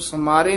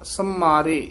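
First: The m sound is short and light. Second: The m sound is held long and tight. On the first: The speaker calls it wrong. "ਇਸ ਨੂੰ ਸਮਾਰੇ ਨੀ ਕਹਿਣਾ" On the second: The speaker calls it right. "ਥੋੜਾ ਜਿਹਾ ਕੱਸ ਕੇ ਉਚਾਰਨ ਕਰਨਾ"

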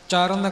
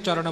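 First: The final n is dental, tongue behind teeth. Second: The final n is retroflex, tongue curled back. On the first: "ਪਰ ਜਿੱਥੇ ਨੰਨਾ ਹੈ" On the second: "ਜਿੱਥੇ ਚਰਨ ਨਾਣਾ ਲਿਖਿਆ ਉੱਥੇ ਚਰਨ ਬੋਲਾਂਗੇ"

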